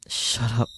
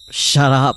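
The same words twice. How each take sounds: First: Said in the usual way. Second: Bursting out at the voices; loud shout. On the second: Acted. Takuru to the taunting voices: a furious shouted shut up. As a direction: Shut up! yelled much louder and higher.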